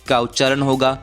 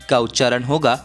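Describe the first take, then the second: No difference in how they are said.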